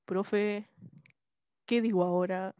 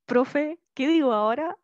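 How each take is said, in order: First: Lower-pitched copy of a student's question; trying on a deeper voice; attempted tone imitation. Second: Louder, squeaky question; loud demo of one's own squeaky voice; usual squeaky voice. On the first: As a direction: drop your pitch to match the student. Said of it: "no, yo lo intenté". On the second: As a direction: ask it in your everyday squeaky voice. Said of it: "con mi voz chillona de siempre". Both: Shown as a demonstration.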